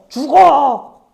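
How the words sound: It is said in an angry tone. The speaker is furious at the listener. "분노라는 마음이 느껴져요"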